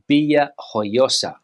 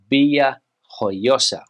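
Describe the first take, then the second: First: It is said with a Spanish pronunciation. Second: It is said with a Spanish pronunciation.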